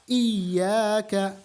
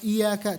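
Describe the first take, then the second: First: The y sound is doubled and held long. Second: The y sound is single and short. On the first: The speaker calls it right. "Kita harus menjaga tasydid-tasydid dalam bacaan Fatihah" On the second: The speaker calls it wrong. "Jangan baca iyyaka, iyyaka tanpa tasydid"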